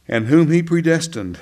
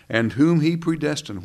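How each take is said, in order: First: Whom he predestined said louder and firmer; louder restart. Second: Said in the usual way. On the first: Real, not acted. Preacher restarting the Romans eight verse, louder. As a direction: restart the verse with fresh force. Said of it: "Romans eight". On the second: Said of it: "where am I?".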